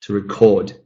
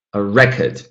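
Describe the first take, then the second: First: "record" as a verb, second syllable stressed; weak start, weight on the end of "record". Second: "record" as a noun, first syllable stressed. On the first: Teacher models the verb for students, second-syllable stress in "record". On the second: Teacher models the noun for students, first-syllable stress in "record". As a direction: hit the start of "record", unstressed second syllable. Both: Shown as a demonstration.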